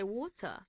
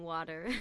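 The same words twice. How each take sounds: First: Water as WAW-tuh, crisp t, no r; water ending in "tuh"; British water. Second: Water with a flapped t and an r ending; American water. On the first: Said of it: "I used to say water". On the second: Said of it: "back to American water". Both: Shown as a demonstration.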